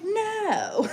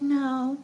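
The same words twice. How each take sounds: First: It is said loudly and with force. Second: It is said quietly and weakly.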